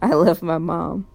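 It is said firmly, with conviction.

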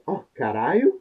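It sounds surprised and shocked.

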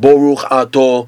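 The vowels are shifted to 'o' sounds.

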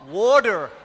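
It is said in an American accent. "That's how they pronounce it in the States"

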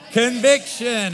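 The word is said forcefully, with strong emphasis. "Now say it with some conviction"

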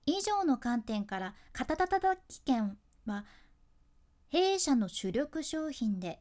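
The sentence is broken up by a clear pause. The speaker seems calm and composed. The speaker calls it right. "間を置くと自分の気持ちを落ち着けることにもなる"

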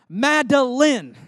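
The name is said sternly, every syllable pronounced. She is in trouble. "use all the syllables of her name"

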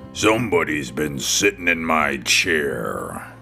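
It is said in a big, deep, booming voice.

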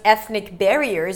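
The stress falls on the second word. It is a single descriptive phrase. "I'd probably stress the word barriers"

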